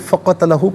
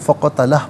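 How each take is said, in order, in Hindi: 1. शब्द का अंत एक छोटे अंतिम स्वर पर होता है। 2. शब्द का अंत एक बिना स्वर वाले व्यंजन पर होता है। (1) "तो इसे फ़क़तलहु पढ़ेंगे" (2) "वफ़ करेंगे तो फ़क़तलह पढ़ेंगे"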